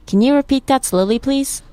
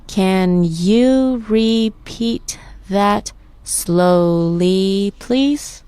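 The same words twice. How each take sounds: First: Said in the usual way. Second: Very slow, separated syllables rising on "please". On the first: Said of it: "I'll say the phrase or sentence". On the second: Shown as a demonstration. Teacher leading the last practice phrase, syllable by syllable. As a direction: stretch every syllable of the question. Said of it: "Let's break it down by syllable".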